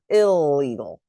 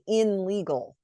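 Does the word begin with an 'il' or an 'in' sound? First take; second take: il; in. First: The prefix is blended into an l sound. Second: The prefix keeps its n sound before legal. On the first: The speaker calls it right. "The I N becomes I L for illegal" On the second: The speaker calls it wrong. "we don't say in legal"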